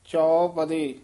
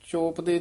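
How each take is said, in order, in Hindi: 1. पहला स्वर खुला 'au' ध्वनि है। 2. पहला स्वर सादा 'o' ध्वनि है।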